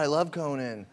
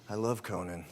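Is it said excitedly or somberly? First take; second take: excitedly; somberly. First: It is said excitedly and out loud. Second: It is said somberly and quietly to herself.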